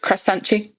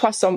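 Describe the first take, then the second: First: It is said Brazilian-style, ending in chi. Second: It is said plainly, ending on a t.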